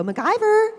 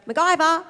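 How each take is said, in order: First: MacGyver called high and loud, drawn out; high sing-song call. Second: Plain call. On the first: Owner showing how to call the dog MacGyver, high sing-song call. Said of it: "You gotta go". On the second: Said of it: "the dog won't come". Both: Shown as a demonstration.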